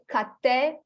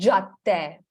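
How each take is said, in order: First: The word begins with a k sound. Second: The word begins with a j sound. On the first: The speaker calls it wrong. "Students try to say cadde, which is not correct" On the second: The speaker calls it right. "is cadde"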